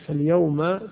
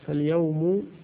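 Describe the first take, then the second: First: The word ends with a short 'a' vowel. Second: The word ends with a short 'u' vowel. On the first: It means the present time, whatever day it is. The speaker calls it wrong. "تريد يوم كلمت فيه ... ظرف زمان" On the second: It names that particular day itself. The speaker calls it right. "المراد به إيش؟ ها اليوم نفس اليوم يعني ذات اليوم"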